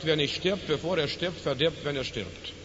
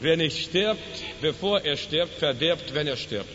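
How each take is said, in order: First: It is spoken at a normal pace. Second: It is spoken slowly and deliberately.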